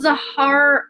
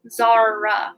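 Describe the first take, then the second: First: The name is said with an audible H sound. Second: The name is said with no H sound. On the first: "maybe I'm saying that wrong" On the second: "maybe the H is silent"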